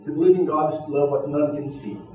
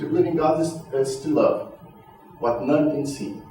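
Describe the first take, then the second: First: The line runs straight through without a pause. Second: There is a pause right after 'is'. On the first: "Eu poderia ler também" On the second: "eu posso pausar"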